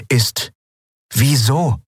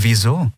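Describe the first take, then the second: First: Wieso asked higher and pressing, rising hard at the end; serious, demanding. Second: Said in the usual way. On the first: Acted. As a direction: demand wieso with a steady look. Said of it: "ernst, fordernd". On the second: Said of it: "bemüht, ihre eigene Verwirrung zu überspielen".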